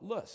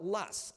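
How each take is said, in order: First: The word is said the Western way. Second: The word is said the Midwestern way. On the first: The speaker is from the West. "Out here in the West, we call it Luss" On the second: The speaker learned it in the Midwest. "If you're educated or your professor was educated in the Midwest, you will call it Luss"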